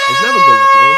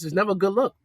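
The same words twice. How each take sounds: First: Much louder, hitting never; loud emphatic repeat. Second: Said in the usual way. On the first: Shown as a demonstration. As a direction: blast it out for emphasis.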